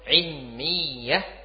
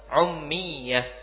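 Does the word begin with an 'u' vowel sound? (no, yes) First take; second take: no; yes. First: The first vowel is not an 'u' sound. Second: The first vowel is an 'u' sound. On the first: "mim dan ya" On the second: "Wa yuqal bi dhammil ain. Ada juga yang mengatakan boleh membaca dengan mendhamma"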